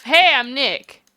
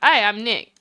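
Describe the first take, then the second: First: A louder, slower greeting. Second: Said in the usual way. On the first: Acted. Testing if a camera reacts to noise, louder. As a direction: say it again more loudly and drawn out. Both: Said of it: "Maybe I'm not saying it loud enough".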